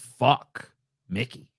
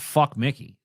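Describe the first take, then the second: First: A short pause separates the two words, in awe. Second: The words run together as an insult.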